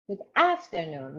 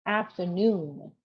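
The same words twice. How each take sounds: First: "afternoon" stressed on the first syllable, AF-ternoon; mock learner's "Good afternoon"; wrong afternoon stress. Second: "Afternoon" slow, stress on the last syllable, after-NOON; slow model "Afternoon", stressing the end; correct afternoon stress. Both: Shown as a demonstration. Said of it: "which is completely wrong".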